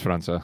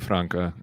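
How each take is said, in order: First: The middle consonant is a soft s sound. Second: The middle consonant is a hard k sound. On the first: The speaker calls it right. "It's the C with the little thing on the bottom of it. oh, okay, so it's França" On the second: The speaker calls it wrong. "I want to say Franca and really badly, but it's it's it's probably not"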